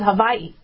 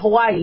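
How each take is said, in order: First: It is said the native Hawaiian way. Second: It is said the common anglicized way. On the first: The speaker calls it right. "You pronounce it Hawaii" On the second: The speaker calls it wrong. "You don't pronounce it Hawaii"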